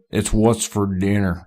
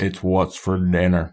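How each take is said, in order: First: Slow drawling imitation of Sam Elliott; Sam Elliott impression. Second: A slower, lighter take on the ad line; Sam Elliott impression. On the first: Imitating Sam Elliott for his friends in a slow ad-man drawl. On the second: Repeating the beef ad line for friends, lightly drawled. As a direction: drawl the slogan lazily. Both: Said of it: "Sam Elliott's like".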